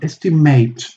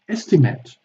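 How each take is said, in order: First: The last syllable has a full 'ate' vowel. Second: The last syllable has a reduced schwa vowel. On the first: It is used as a verb. "estimate as a verb" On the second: It is used as a noun. "estimate as a noun"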